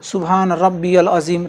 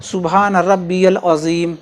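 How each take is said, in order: First: A y-sound links Rabbi to the 'l'. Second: The same.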